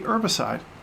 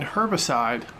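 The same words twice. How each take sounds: First: It starts without an H sound. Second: It starts with an H sound. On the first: "do you not pronounce the H and say herbicide" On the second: "Do you pronounce the H in herbicide"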